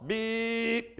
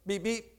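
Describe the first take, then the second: First: One held, steady beep like a car horn; imitated long horn beep. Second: Quick, softer clipped pair of beeps; two short imitated horn beeps. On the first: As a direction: stretch the beep out as the long signal. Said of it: "You beep one long". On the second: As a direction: tap out the two short honks with your voice. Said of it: "you beep two shorts". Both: Shown as a demonstration.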